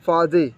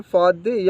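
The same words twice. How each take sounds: First: फाजी with a z sound; alternative Arabic variant. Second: फादी with a d sound; usual Arabic variant. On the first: Teacher offering learners the other understood form, फाजी said with z. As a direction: say फाजी with z instead of d. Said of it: "फाजी बोलेंगे तो भी समझ जाएंगे". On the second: Teacher giving learners the common Arabic form, फादी said with d. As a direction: say फादी with d, not z. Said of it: "वो ज़्यादातर अरबी बोलते हैं फादी". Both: Shown as a demonstration.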